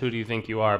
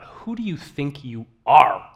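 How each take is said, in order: First: It is said as a plain, neutral question. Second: It is said as an indignant, forceful exclamation.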